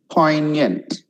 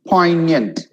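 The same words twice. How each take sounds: The two takes are said the same way.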